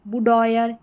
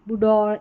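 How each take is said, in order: First: The ending sounds like 'oyer'. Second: The ending sounds like 'or'.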